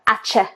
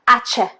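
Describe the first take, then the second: First: The word is said with a 'ch' sound. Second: The same.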